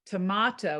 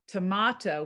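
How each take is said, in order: First: Tomato is said the European way, unlike potato. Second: Tomato is said the European way, unlike potato.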